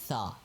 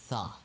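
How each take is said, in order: First: It starts with a th sound, tongue between teeth. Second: The same.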